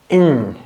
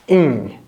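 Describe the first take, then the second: Both takes have the same delivery.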